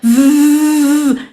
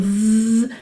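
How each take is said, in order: First: The buzz is made loudly, with forcing. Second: The buzz is made softly, at moderate volume. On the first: The speaker calls it wrong. "on l'entend, je force de suite" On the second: The speaker calls it right. "je cherche un volume de trois quatre sur dix"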